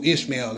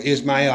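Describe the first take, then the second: First: Said in the usual way. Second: "Ishmael" said as ish-MAL; alternate pronunciation. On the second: Shown as a demonstration. Teacher offering another way to say the name, "Ishmael" as ish-MAL. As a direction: say "Ishmael" with a short, open last vowel, like "ish-mal". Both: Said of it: "however you wanna say it".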